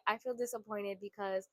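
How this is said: The tone is soft and gentle. It shares feelings to build closeness. The speaker calls it right. "if you change your tone"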